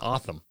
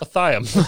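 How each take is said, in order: First: The Y sound in the name is subdued. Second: The Y sound in the name is hard.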